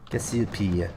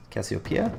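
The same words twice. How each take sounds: First: "Cassiopeia" said the French way, falling, kes-ee-PEE; a half-hearted French take on "Cassiopeia"; mock French accent. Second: Cassiopeia read out as kas-ee-oh-PAY-uh, rising like a question; "Cassiopeia" tried out hesitantly, question tune at the end; unsure pronunciation. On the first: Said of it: "too nasally to do my, the proper French accent". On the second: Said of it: "However it's pronounced". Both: Shown as a demonstration.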